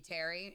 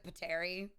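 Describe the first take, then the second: First: The first P is silent. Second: The first P is sounded. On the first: The speaker calls it right. "I believe it's just supposed to be Terry" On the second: The speaker calls it wrong. "I pronounce it Pateri because I pronounce the P"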